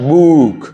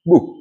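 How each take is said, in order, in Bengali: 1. স্বরধ্বনিটি টেনে দীর্ঘ করে বলা হয়েছে। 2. স্বরধ্বনিটি ছোট করে হ্রস্ব ভাবে বলা হয়েছে। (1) "not book" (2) "শর্ট করে বলতে হবে"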